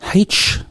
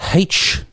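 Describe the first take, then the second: Both takes have the same delivery.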